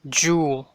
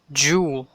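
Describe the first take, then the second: Both takes have the same delivery.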